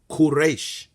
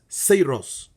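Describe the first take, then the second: First: The name sounds like 'Quraysh'. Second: The name sounds like English 'Cyrus'. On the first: This is the Hebrew form of the name. "if we go into the Hebrew, it is pronounced Quraysh" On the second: This is the Persian form of the name. "in Persian, it's pronounced Cyrus"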